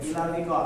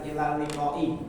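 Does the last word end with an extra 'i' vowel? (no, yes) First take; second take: no; yes. First: The last word ends without any added vowel. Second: The last word ends with an added 'i' vowel. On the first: This is how it is said in speech. "kalau kita ngomong di sukun huruf terakhir" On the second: This is the full written form. "kalau ditulisan ilal liqai"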